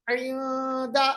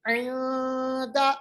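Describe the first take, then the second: The two takes are said the same way.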